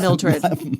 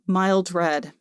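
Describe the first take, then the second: First: It is said as one single word. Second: It is said as two separate words. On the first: "It's much better than Mildred" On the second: "I thought it was a very pretty name"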